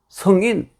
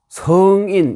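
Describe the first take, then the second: First: The first vowel is kept short. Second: The first vowel is held long. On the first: "성인 짧게 읽었습니다" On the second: "성인 길게 읽어야 됩니다"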